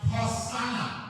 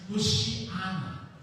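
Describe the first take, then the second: First: The word is said with an 's' sound. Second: The word is said with an 'sh' sound. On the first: This is the Latin form. "Or sa Latin, ito po ay Hosanna" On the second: This is the original Hebrew form. "Hebrew po ito, na ang pronunciation niya is Hoshiana"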